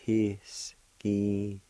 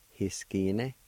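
First: "Hiskine" broken into slow, held syllables. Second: Said in the usual way. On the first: Shown as a demonstration. Teacher pronouncing the word for learners, slowly syllable by syllable. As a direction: sound out "Hiskine" with a gap after each sound. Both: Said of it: "It's pronounced like this".

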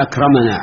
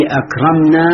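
First: أكرمنا with an opened mim, "akramanaa"; fatha on mim. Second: أكرمنا slowly, mim closed, "akramnaa"; sukun on mim. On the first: Teacher asking why it takes fatha, أكرمنا as "akramanaa". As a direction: pronounce أكرمنا as "ak-ra-ma-naa". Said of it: "في أكرمنا على الفتح". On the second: Teacher asking why it takes sukun, أكرمنا as "akramnaa". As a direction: pronounce أكرمنا as "ak-ram-naa". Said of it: "على السكون؟". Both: Shown as a demonstration.

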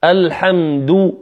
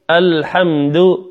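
First: Slow الحمد with full round "du"; rounded lips. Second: Slow الحمد with a slack, unrounded "du"; unrounded lips. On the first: Teacher contrasting for listeners, rounded "du" in الحمد. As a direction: push lips out on the end of الحمد. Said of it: "الحمد بإخراج الشفتين". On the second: Teacher contrasting for listeners, unrounded "du" in الحمد. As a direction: keep lips back on the end of الحمد. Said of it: "والأخرى لم أخرج الشفتين". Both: Shown as a demonstration.

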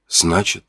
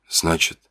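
First: Softer, rising unfinished word; hesitant rising. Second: Much softer, falling away; fading whisper-soft. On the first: The narrator begins to grasp the truth, hesitant and soft. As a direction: start the thought hesitantly. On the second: The narrator, stunned, repeats the word as his voice fades. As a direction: let the thought sink in as the voice fades. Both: Acted. Thinking aloud.

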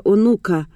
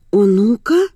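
First: Said in the usual way. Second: Astonished question, pitch climbing sharply; stunned echo. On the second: Acted. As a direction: repeat it in disbelief, rising at the end. Изумлённо повторяет услышанное слово.

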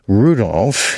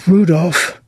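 First: Said in the usual way. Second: High, pointed call of a son's name; a mother about to complain; ominous mother's call. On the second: Acted. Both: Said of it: "From the tone in which she said".

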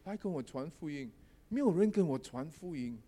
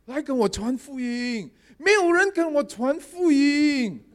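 First: Softer repeat of the puppy's call; quiet retelling. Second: High, slow calling cry; dog calling out. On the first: Pastor quietly repeating what the puppy called, softer. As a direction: say it again quietly, half to yourself. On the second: Talking puppy calling out to the pastor, high slow cry. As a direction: call out slowly like the talking puppy. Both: Retold or imitated. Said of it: "一路这样喊哦".

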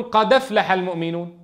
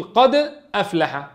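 First: قد أفلح said with a clear glottal stop before أفلح; careful reading keeping the hamza; with hamza kept. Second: قد أفلح said as one run, qadaflaha, the hamza dropped; slow قد أفلح with the fatha joined onto the dal; slow demo dropping the glottal stop; vowel moved to dal. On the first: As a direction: keep the hamza in قد أفلح, qad aflaha. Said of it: "بعضهم يقولون". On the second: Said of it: "وبعضهم يقول". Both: Shown as a demonstration.

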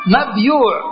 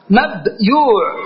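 First: "مبيوع" run together as mabyūʕ; joined-up demonstration. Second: "مبيوع" slowly split as mab... yūʕ, long ū; syllable-split demonstration. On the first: Teacher repeating the full pattern for the class, "مبيوع" joined as mabyūʕ. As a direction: say "مبيوع" in one go, mabyūʕ with long ū. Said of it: "هكذا". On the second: Teacher showing the class the underlying form, "مبيوع" slowly split mab-yūʕ. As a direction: break "مبيوع" after mab, then stretch yūʕ. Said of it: "إذا أتيت بوزن مفعول كيف تقول؟". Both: Shown as a demonstration.

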